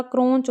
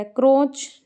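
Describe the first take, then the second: First: "क्रोंच" with an n before ch, "kronch"; correct pronunciation. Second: "क्रोच" without a nasal, "kroch"; wrong pronunciation. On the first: Teacher correcting students, "क्रोंच" said with the n sound. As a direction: nasalise the vowel in "क्रोंच". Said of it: "होता है". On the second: Teacher showing students the mistake, "क्रोच" with no n sound. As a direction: say "क्रोच" with a plain o before ch. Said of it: "नहीं होता". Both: Shown as a demonstration.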